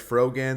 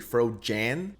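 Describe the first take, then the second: First: The middle consonant is a hard g sound. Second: The middle consonant is a soft j sound. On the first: The speaker calls it wrong. "I've been getting told that I'm pronouncing her name wrong" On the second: The speaker calls it right. "It's actually Frojan"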